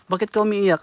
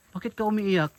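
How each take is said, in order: First: Asking the crying woman again, louder; louder repeat. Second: Said in the usual way. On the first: Real, not acted. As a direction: repeat it louder since she didn't answer. Repeats question louder after Ha.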